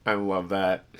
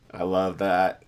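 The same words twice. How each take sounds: The two takes are said the same way.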